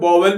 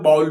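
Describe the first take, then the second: First: The word begins with a 'v' sound. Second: The word begins with a 'b' sound. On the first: "कुछ लोग इसे वोवेल भी पढ़ते हैं" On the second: "कुछ लोग इसे बाउल भी पढ़ते हैं"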